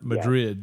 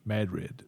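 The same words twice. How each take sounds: First: It does not sound like 'mad' plus 'rid'. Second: It sounds like 'mad' and 'rid' joined together. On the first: This is how the Spanish city is said. The speaker calls it wrong. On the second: This is how the local town is said. The speaker calls it right. "They say Madrid"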